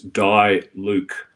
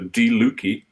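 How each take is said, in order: First: The name is said in an English pronunciation. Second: The name is said in its local pronunciation.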